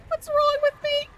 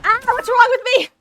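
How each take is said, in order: First: High squeal through laughter; crying laughing. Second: Loud high despairing cry; anguished wail. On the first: Streamer laughing at herself, high laughing squeal. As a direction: laugh it out helplessly. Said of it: "I'm literally crying". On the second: Gamer wailing after a blunder in the match. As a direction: wail it out at your own mistake. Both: Real, not acted.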